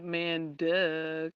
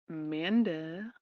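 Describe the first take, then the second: First: The name ends with a separate, marked 'duh'. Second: The name is said smoothly as one word. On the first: It plays on the word 'duh'. "But I said man duh, cause like duh" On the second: This is how the owner of the name may say it. "She's like, uh, Amanda"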